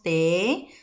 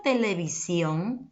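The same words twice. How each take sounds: First: "televisión" split into te, le, vi, sión; syllable by syllable. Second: Said in the usual way. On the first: Shown as a demonstration. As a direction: sound out "televisión" one syllable at a time, with pauses. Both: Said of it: "si le abreviando tenemos".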